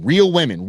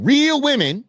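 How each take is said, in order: First: Real leaned on, falling; stress on real. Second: Real jumps much higher; real pitched way up, hammered; stress on real. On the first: Repeating real women with firm stress. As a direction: weighs the word real. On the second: Repeating real women, the word real pushed up high. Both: Shown as a demonstration.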